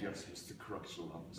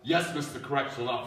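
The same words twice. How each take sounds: First: It is said quietly. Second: It is said more loudly.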